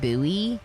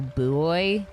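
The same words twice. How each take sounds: First: The word is said with two syllables. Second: The word is said as one syllable, like boy. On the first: This is the speaker's usual pronunciation. "That's how I say it" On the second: It makes the oh boy joke work. "which doesn't sound as good as saying, oh, buoy"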